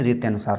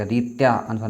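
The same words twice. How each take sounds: First: "रीत्यानुसार" run together as one word; correct joined form. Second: "रीत्या अनुसार" with a separate long aa-a join; wrong split form. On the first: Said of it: "रीत्यानुसार होता है". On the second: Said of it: "रीत्या अनुसार नहीं". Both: Shown as a demonstration.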